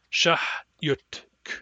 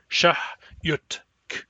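No difference in how they are said.

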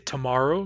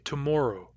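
First: It is said with an American accent. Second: It is said with a Canadian accent. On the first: "I say tomorrow" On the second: "you say tomorrow"

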